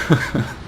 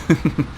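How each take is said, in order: Both takes have the same delivery.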